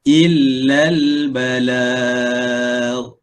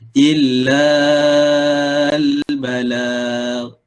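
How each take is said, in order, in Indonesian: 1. Vokal la dibaca pendek. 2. Vokal la dibaca panjang. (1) "dia kena pendek je" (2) "Itu salah eh"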